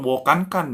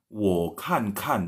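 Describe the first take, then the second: First: "wo kan kan" pitched higher, "kan" not falling; the mistaken take of "wo kan kan", high "kan"; showing the wrong way: "wo kan kan" said high; wrong Mandarin tones. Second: "wo kan kan" said very slowly, each "kan" with a falling tone; slow model take of "wo kan kan"; teacher demo: "wo kan kan", "kan" falling; correct Mandarin tones. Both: Shown as a demonstration.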